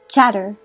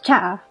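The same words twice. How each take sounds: First: The t is a clear t sound. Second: The t is a glottal stop.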